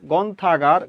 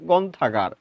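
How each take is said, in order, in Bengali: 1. শব্দ দুটো দ্রুত একসাথে মিশে একটি শব্দ হয়ে যায়। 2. শব্দ দুটো দ্রুত একসাথে মিশে একটি শব্দ হয়ে যায়।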